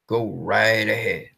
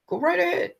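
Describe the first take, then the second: First: Said in the usual way. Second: Higher, softer sarcastic go right ahead; mocking invitation. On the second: Real, not acted. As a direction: taunt Warner Brothers sarcastically. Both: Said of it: "repeated taunt".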